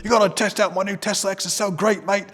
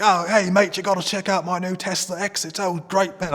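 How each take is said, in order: First: Louder, higher mock British mate accent. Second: Mock British accent sliding into Australian, pitched higher; a lightly done British Australian mash-up; mixed British Australian accent. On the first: British friend bragging about his Tesla, hammed-up British accent. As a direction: ham up a British bloke bragging. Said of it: "mixing Australian and British". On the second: Friend showing off his new Tesla, mock British Australian accent. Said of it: "I'm, like, mixing Australian and British now".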